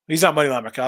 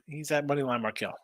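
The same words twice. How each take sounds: First: "not" punched louder as a correction; stress on NOT. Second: Said in the usual way. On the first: Real, not acted. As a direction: lean on the word "not" to set it straight.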